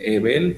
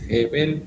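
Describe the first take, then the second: First: The name starts directly with a vowel sound. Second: The name starts with a breathy h sound. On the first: The speaker calls it wrong. "en vez de decir Ebel" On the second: The speaker calls it right. "se dice Jebel"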